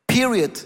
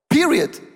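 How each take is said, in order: First: Said in the usual way. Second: Period said higher and louder with a hard fall; emphatic period. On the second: Shown as a demonstration. Pastor insisting to the congregation, with a final falling stress. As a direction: slam the word Period down as final.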